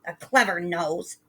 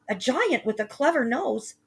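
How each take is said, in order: First: Hissed mock. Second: Put-on higher scared boy says "clever nose"; "clever nose" in Jack's frightened high voice. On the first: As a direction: sneer back "A clever nose". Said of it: "his mother hissed". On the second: Jack telling mother of giant.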